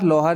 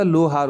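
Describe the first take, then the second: First: लोहार with the vowel shifted, as "lau-haar"; wrong form demo. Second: लोहार as "lo-haar", round o; correct form demo. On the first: Teacher showing the error, लोहार as lau-haar. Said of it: "लोहार नहीं होता". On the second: Teacher correcting children, लोहार as lo-haar. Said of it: "लोहार होता है". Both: Shown as a demonstration.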